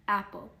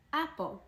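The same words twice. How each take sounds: First: Said in the usual way. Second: Apple raised high then falling; bright teaching model. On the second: Shown as a demonstration. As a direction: lift apple up and let it drop like a teacher modelling the word.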